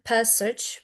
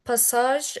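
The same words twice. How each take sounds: First: "passage" stressed first, ending reduced, PASS-ij; slow "passage" with a short weak "ij" ending; pronunciation demo of passage. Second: "passage" with a full second vowel, pa-SAHZH; pronunciation demo of passage. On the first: Teacher showing stress patterns, "passage" said with reduced ending. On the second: Teacher showing stress patterns, "passage" said with full final vowel. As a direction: say "passage" French-style, ending in a long "ahzh". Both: Shown as a demonstration. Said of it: "best to learn stress patterns by heart".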